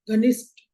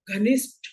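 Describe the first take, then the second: First: घनिष्ठ ending in unaspirated ट; घनिष्ठ said with a plain retroflex t; common mispronunciation. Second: घनिष्ठ ending in an aspirated retroflex ठ; घनिष्ठ with ठ, not ट; correct pronunciation. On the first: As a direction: drop the puff at the end of घनिष्ठ. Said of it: "हम इसका उच्चारण करते हैं". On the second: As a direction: finish घनिष्ठ on a puffed "th" with tongue curled back. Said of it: "जैसे शब्द है". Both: Shown as a demonstration.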